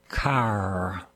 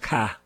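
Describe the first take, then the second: First: It has a non-Boston accent, r pronounced. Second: It has a Boston accent, r dropped.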